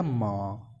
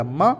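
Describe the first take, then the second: First: म with its vowel drawn out long; full pronunciation. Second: म as a short, closed 'm'; consonant without vowel. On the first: Teacher contrasting full letter with bare consonant, म held long. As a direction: stretch म into a full, low syllable. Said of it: "इसका पूरा का उच्चारण". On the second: Teacher contrasting bare consonant with full letter, म clipped short. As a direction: say म briefly, cutting off the vowel. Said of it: "स्वर के बिना व्यंजन वर्ण". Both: Shown as a demonstration.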